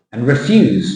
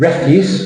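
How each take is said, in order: First: "refuse" stressed on the second syllable, re-FUSE; verb stress. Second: "Refuse" stressed on the first syllable, REF-use; noun stress. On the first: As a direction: say "refuse" as to decline, re-FYOOZ. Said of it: "meaning ปฏิเสธ". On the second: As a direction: say "Refuse" as garbage, REF-yoos. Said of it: "meaning garbage". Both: Shown as a demonstration.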